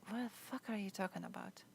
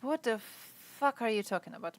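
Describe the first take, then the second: First: Said much softer, under the breath; muttered disbelief. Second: Full voice, exasperated and incredulous; outraged disbelief. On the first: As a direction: mumble it to yourself in disbelief. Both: Real, not acted. Reacting to chat statement.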